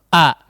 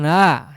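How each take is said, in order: First: The vowel starts with a firm catch, kept short. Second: The vowel is drawn out like a long vowel. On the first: The speaker calls it right. "tapi a" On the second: The speaker calls it wrong. "bukan a ya, itu huruf mad"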